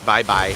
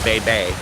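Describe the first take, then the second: First: Each syllable is said like 'bye'. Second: Each syllable is said like 'bay'. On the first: The speaker calls it right. "so I think it's Bye Bye" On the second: The speaker calls it wrong. "not Bay Bay"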